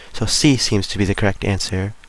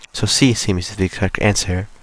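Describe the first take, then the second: Both takes have the same delivery.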